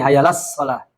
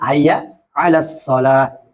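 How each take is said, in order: First: No throat consonant comes before 'alas'. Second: A throat consonant comes before 'alas'. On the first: The speaker calls it wrong. "ini hayya las shalah" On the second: The speaker calls it right.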